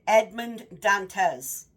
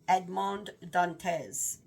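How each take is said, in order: First: The name is said with an American accent. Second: The name is said with a French-style accent. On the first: This is how a reader would say it. "I'm going to read it like an American accent" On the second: This is how the audiobook narrator says it. "I'm saying it like that because the entire story is is read with an accent"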